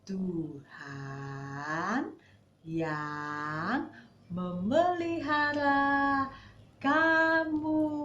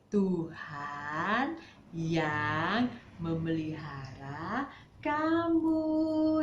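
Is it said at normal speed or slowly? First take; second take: slowly; normal speed. First: It is said slowly. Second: It is said at normal speed.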